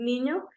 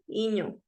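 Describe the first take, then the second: First: The word begins with an n sound. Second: The word begins with a vowel. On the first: The speaker calls it right. "quiere decir niño" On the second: The speaker calls it wrong. "cuando omito"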